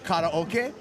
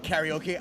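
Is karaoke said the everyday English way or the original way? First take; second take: original; everyday English. First: The word has its original, non-English pronunciation. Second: The word has its everyday English pronunciation. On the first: "I like to pronounce it properly" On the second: "You can call it karaoke"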